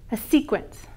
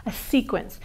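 The two takes are said the same way.

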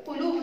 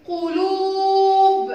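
First: Said in the usual way. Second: قلوب with "luu" held very long, high and loud; slow, drawn-out قلوب; long vowel. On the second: Shown as a demonstration. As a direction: chant قلوب, stretching the waw. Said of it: "طويلة".

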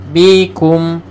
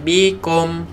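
First: "Bikum" with a clear u sound; correct u. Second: "bikum" with an o sound, like bikom; wrong vowel. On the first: Teacher giving the correct "Bikum", clear u. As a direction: say "Bikum" with a firm u. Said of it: "kena ku". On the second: Teacher showing the wrong "bikom" vowel. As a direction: say "bikum" with a wrong o in the last syllable. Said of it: "jangan bikum". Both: Shown as a demonstration.

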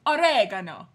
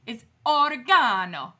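First: Oregano punched loud as o-RAY-guh-no; defiant American pronunciation. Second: Loud mock-Italian oregano, long GAH; mock Italian accent. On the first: Retold or imitated. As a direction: fire back Oregano, hammering the second syllable. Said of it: "I can do that too". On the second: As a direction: lean hard into an Italian o-ri-GAH-no. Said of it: "do it with an Italian accent".

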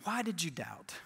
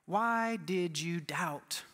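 First: Soft, lowered question; hushed, low-pitched pondering; quiet rebuke. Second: Drawn-out, lower-pitched question; very slow, weighted delivery; slow gentle rebuke. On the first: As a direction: repeat it softly, letting it sink in. Repeats the question more softly. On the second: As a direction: stretch out each word, solemn and searching. Acted rebuke of Peter by Jesus. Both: Acted.

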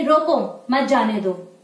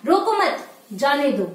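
First: Slow रोको, a break, then मत जाने दो together; pause after रोको. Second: रोको मत together, a break, then जाने दो; pause after मत. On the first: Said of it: "जैसे हम इस वाक्य को पढ़ेंगे". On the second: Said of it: "अगर हम इसे ही यहाँ पर हटाकर यहाँ पे कर देते हैं". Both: Shown as a demonstration.

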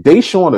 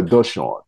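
First: "Deshaun" said as DAY-shawn; checking pronunciation. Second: "Deshaun" said as duh-SHAWN; alternative pronunciation. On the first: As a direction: open "Deshaun" with a clear DAY. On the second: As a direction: open "Deshaun" with a short, unstressed duh. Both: Shown as a demonstration. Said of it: "did I say it right".

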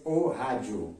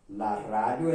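First: "o radio" as o HA-joo; Brazilian Portuguese pronunciation. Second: "La radio" with a tongue-tip r and plain d; Spanish pronunciation. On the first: Teacher comparing words for students, Portuguese pronunciation. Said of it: "En portugués". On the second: Teacher comparing words for students, Spanish pronunciation. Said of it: "en español". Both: Shown as a demonstration.

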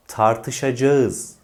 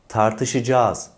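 First: "tartışacağız" as tar-tı-şa-ca-ız; as written. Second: "tartışacağız" as tar-tı-şı-caaz; long merged a ending "tartışacağız"; spoken form. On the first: Teacher introduces the spelling, "tartışacağız" fully sounded. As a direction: keep a and ı apart in "tartışacağız". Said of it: "yazılan". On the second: Teacher introduces the spoken word, "tartışacağız" as tartışıcaaz. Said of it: "olarak okunan yahut söylenen". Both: Shown as a demonstration.

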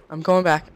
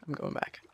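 First: Louder firm call; loud retreat call. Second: Soft whispered repeat; whispered retreat. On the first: Gamer deciding to flee a danger, loud. Gamer flees, repeats line. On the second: Gamer quietly fleeing a danger, whispered. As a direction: whisper it to yourself. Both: Real, not acted.

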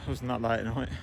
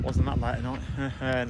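First: Said in the usual way. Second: Slow, drawn out. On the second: Shown as a demonstration.

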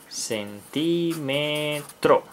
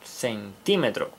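First: "Centímetro" drawn out slowly, syllable by syllable. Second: "Centímetro" with the accent on TÍ, slower and softer; stress on the I. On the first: Teacher sounding out "Centímetro" for children, slowly syllable by syllable. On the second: Teacher showing children the accent, stress on the í of "Centímetro". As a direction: lean on the í in "Centímetro", then let it fall. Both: Shown as a demonstration. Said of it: "con acento en la I".

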